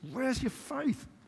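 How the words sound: The question sounds frustrated and reproachful. The listeners are being scolded for not trusting. The speaker calls it wrong. "is he really frustrated with us?"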